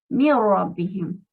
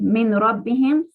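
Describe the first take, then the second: First: The n at the end of min is dropped. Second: The n at the end of min is pronounced. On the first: The speaker calls it right. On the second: The speaker calls it wrong.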